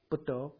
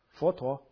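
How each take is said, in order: First: The word begins with a B sound. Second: The word begins with an F sound. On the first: The speaker calls it right. "那你用台湾闽南话练怎么练？" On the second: The speaker calls it wrong. "那你普通话怎么练？佛陀是F"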